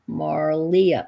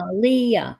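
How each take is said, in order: First: The name has an R sound before the L. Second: The name has no R sound before the L. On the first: The speaker calls it wrong. "Drop the R. There's no R" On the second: The speaker calls it right. "Just replace the R with the L"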